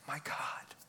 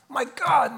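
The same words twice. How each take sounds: First: It is said in a broken-hearted, despairing tone. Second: It is said in an angry, accusing tone. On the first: The speaker is heartbroken and still trusting. "the tone was a broken-hearted child in despair" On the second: The speaker is accusing God out of anger. "the tone of a complaining, accusatory child. ... In anger"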